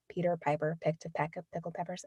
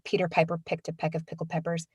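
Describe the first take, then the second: First: The p sounds are soft with little air. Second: The p sounds pop with strong bursts of air. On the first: The speaker calls it right. "you can just release less air" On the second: The speaker calls it wrong. "you can feel that that air coming out"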